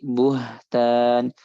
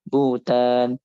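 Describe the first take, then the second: First: The h sound in the middle is clearly heard. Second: The h sound in the middle is dropped. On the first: The speaker calls it right. "tapi buhtan" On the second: The speaker calls it wrong. "jangan butan"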